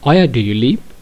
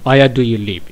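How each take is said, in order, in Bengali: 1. এটা প্রশ্নসূচক সুরে বলা হয়। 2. এটা সাধারণ বিবৃতির সুরে বলা হয়। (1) "প্রশ্ন করি এভাবে বলতে হবে" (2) "সচরাচর জেনারেল কথার মতো আমি বলে থাকি"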